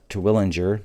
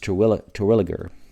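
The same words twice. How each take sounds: First: The name is said with an added N sound. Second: The name is said without any N sound. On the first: The speaker calls it wrong. "it's not Terwilliger. Everybody wants to call it Terwilliger. There's no N" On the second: The speaker calls it right. "There's no N. It's Terwilliger. And it sounds like Twig"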